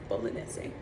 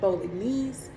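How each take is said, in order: First: The word is said with an Italian pronunciation. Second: The word is said with an anglicized pronunciation. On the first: The speaker calls it right. "the correct Italian pronunciation is bolognese" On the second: The speaker calls it wrong. "I used to say bolognese"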